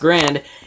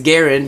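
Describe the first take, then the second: First: The name is said as one syllable. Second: The name is said as two syllables. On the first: The speaker calls it wrong. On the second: The speaker calls it right.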